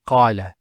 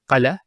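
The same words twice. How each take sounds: First: The first A vowel is long. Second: The first A vowel is short. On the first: The speaker calls it right. "Notice the elongation of the A sound" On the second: The speaker calls it wrong. "Not qala"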